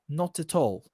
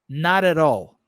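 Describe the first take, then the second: First: It has a British accent with clear t sounds. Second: It has an American accent with r-like t sounds. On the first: "um britânico provavelmente falaria" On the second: "com o meu sotaque, que é muito mais voltado para o americano"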